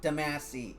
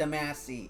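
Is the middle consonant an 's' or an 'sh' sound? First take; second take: s; s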